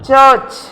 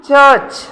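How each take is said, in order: Both takes have the same delivery.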